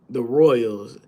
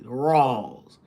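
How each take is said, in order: First: The word is said in a plain accent. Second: The word is said in a Southern drawl.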